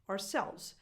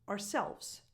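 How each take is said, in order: Both takes have the same delivery.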